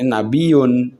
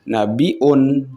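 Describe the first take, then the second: First: A y glide follows the i sound. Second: A glottal stop follows the i sound. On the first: "Kalau meninggalkan hamzah" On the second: "Pakai hamzah"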